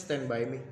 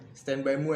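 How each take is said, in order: First: It is said with standard English vowels. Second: It is said with a British-style shifted vowel. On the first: This is how it should be said. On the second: This is how the British speakers say it.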